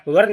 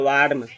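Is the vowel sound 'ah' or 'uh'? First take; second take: uh; ah. First: The vowel is a short 'uh' sound. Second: The vowel is a long 'ah' sound. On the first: The speaker calls it wrong. "वर्न नहीं बोल के" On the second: The speaker calls it right. "इसको बोलेंगे वार्म"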